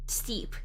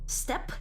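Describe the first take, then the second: First: The vowel is long, like in 'seed'. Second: The vowel is short with an abrupt end. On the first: The speaker calls it wrong. "When I hear steep, I think of like S T E E P" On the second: The speaker calls it right. "I thought it would be like a abrupt end"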